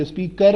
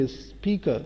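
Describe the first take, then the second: First: اسپیکر ending in a full "kar"; wrong take, sound the r closing اسپیکر; counter-example اسپیکر with an audible final r; pronounced final r. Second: اسپیکر ending in "kuh", no r; softer model of اسپیکر as "speak-uh"; silent final r. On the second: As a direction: let اسپیکر fall away without its r. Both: Shown as a demonstration. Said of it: "اسپیکر نہیں بولیں گے".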